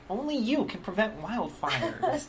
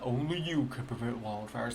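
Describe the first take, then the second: First: It is said in a light, youthful voice. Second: It is said in a deep, low voice. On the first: It sounds like a young man. The speaker calls it wrong. "it's this young, probably millennial guy" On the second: It sounds like the old bear mascot. The speaker calls it right. "like with that deep bear voice"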